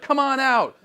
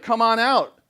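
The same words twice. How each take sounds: First: Higher, loud taunting call; mock challenge to the gods. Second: Higher, louder taunt; mock challenge to the gods. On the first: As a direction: dare them to come out. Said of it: "He's like". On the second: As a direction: call them out, goading. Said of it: "he's like".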